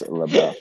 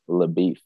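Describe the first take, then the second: First: The second syllable sounds like 'buff'. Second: The second syllable sounds like 'beef'. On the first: The speaker calls it right. "However, I believe it is LaBeouf" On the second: The speaker calls it wrong. "If you recently watched True Grit, you would pronounce it LaBeef"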